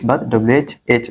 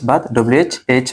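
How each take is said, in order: No difference in how they are said.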